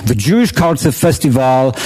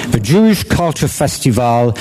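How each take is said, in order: Both takes have the same delivery.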